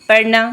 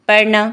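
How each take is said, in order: The two takes are said the same way.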